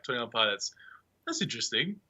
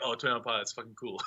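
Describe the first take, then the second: First: Soft, questioning lift at the end; mildly unconvinced, voiced quietly; doubtful reaction. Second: Hushed mock approval, breaking into a laugh; quietly won over, amused; impressed reaction. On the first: Listener hearing an unknown band's name, politely doubtful. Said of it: "until, like, five years ago". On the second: Listener once the band is famous, softly impressed and amused. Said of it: "Now it's like".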